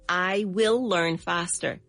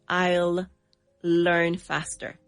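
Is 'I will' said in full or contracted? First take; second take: full; contracted. First: 'I will' is said as two full words. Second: 'I will' is shortened to one syllable. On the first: "the complete version would be" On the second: "We're going to contract I will"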